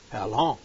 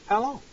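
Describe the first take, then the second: First: Said in the usual way. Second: Much higher anguished plea; pleading. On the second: Acted. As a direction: lift How long into a pleading cry. Prophet's lament, pitch jumps.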